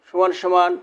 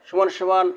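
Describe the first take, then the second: The two takes are said the same way.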